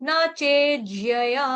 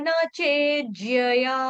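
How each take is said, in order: Both takes have the same delivery.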